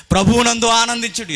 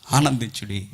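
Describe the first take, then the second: First: Loud, high scripture call; raised, exhorting preacher's cry; ringing proclamation. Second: Said in the usual way. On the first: Real, not acted. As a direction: proclaim it with a jump in pitch. Verse proclaimed on repeat.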